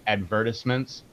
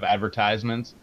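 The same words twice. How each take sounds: First: It is said with a British pronunciation. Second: It is said with a non-British pronunciation. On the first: "British people say advertisements" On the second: "instead of advertisements"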